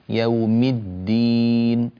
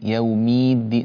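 First: Yawm runs straight into a doubled d. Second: A stretched i vowel follows yawm. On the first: The speaker calls it right. "انتقل إلى التشديد الدال مباشرة" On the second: The speaker calls it wrong. "يومي مي مطيت الكسرة، هذا غير زائد غير صحيح"

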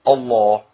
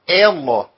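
First: The opening glottal stop is light and natural. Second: The opening glottal stop is forced and exaggerated. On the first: The speaker calls it right. "ولا اقراها الله" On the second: The speaker calls it wrong. "في ناس بتقرأها كده"

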